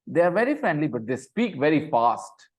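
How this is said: It is said loudly with strong emotion. It is an exclamation. "Exclamation डालने मैंने, क्योंकि मैं एक्सक्लेम कर रहा हूं"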